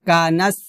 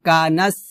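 No difference in how they are said.

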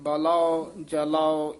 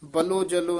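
First: Each word ends in a drawn-out 'ao' sound. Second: Each word ends in a short 'o' sound. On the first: The speaker calls it right. "ਇਸ ਤਰ੍ਹਾਂ ਉਚਾਰਨ ਕਰਨਾ ਹੈ" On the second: The speaker calls it wrong. "ਨਹੀਂ ਕਹਿਣਾ"

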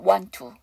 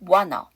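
First: One t sound is heard, joining the words. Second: No t sound is heard; it sounds like wanna. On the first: "앞에 t를 하지 않으니까 want to. 이게 첫 번째 발음이고요" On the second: "t 발음을 안 하니까 n 발음이 그냥 넘어오니까"

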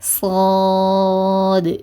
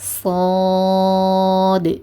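No difference in how they are said.

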